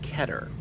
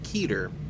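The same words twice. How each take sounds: First: It is said the original Hebrew way. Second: It is said the common English way. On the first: This is the original pronunciation of the word. "the actual word is Hebrew, uh, and it's pr- supposed to be pronounced Keter" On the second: This is the habitual English-speaker pronunciation. "that's how most English language speakers have begun to pronounce it"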